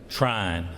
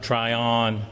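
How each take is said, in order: First: The name is said as one syllable. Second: The name is said as two syllables. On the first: The speaker calls it right. "we pronounce that one syllable now" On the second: The speaker calls it wrong. "not Tryon"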